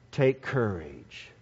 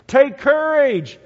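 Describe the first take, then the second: First: Low, soft and slow Take courage; Jesus quietly comforting the disciples; soft reassurance. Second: Louder, higher and slow call over the storm; Jesus calling to the boat in the storm. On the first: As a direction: murmur Take courage gently. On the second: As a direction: call Take courage across the waves. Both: Acted.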